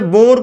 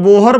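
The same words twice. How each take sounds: First: "बोर" with one long o and a plain r; Bohr as बोर. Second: "बोहर" in two syllables, bo-har; variant बोहर. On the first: Teacher giving students the physicist's name, "बोर" in one syllable. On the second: Teacher showing how some people say Bohr, "बोहर" with a spoken h. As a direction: say "बोहर" with an h sounded in the middle. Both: Shown as a demonstration. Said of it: "कुछ लोग बोहर बोलते हैं".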